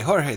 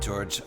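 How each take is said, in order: First: The name is said with a Spanish pronunciation. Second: The name is said with an English pronunciation. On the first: "the Spanish way" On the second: "I'm saying it"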